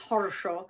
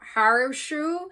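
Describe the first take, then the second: First: It is said in a thick Russian accent. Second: It is said in a Southern American accent. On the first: "to put on a thicker Russian accent" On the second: "an American, probably in the deep south, pronouncing this as like"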